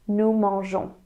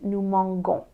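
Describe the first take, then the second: First: The g is said as a soft sound. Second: The g is said as a hard sound. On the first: The speaker calls it right. "So E O N S" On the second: The speaker calls it wrong. "if you don't add this E, you would pronounce it nous mangeons, which sounds wrong"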